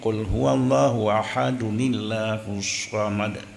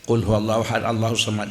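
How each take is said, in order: First: Ahad links into Allahus with an added 'uni' sound. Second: Ahad runs into Allahus with no added 'n' sound. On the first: The speaker calls it right. "menyo tawasal" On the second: The speaker calls it wrong. "menyota samung hanjikeun munan ... nya bandum salah"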